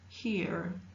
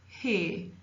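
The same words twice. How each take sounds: First: The vowel is followed by an R sound. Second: The vowel is a single sound without R. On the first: "in American English, the R sound exists" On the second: "in modern English, they tend to make it as one sound"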